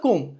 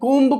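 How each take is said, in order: First: The word ends on m, with no b. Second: A b sound is heard at the end. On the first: The speaker calls it right. "కాదు కూమ్" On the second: The speaker calls it wrong. "కూంబు కాదు"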